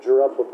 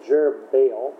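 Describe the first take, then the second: First: Jerubbabel said wrongly as jer-UB-a-bel; Jerubbabel, the slip with the b-b-l ending; the mistaken Jerubbabel; mispronounced name. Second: Jerubbaal said as jer-uh-BAYL; Jerubbaal, ending stretched on baal; the correct Jerubbaal, rising; corrected pronunciation. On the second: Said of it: "I said Jerubbabel". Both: Shown as a demonstration.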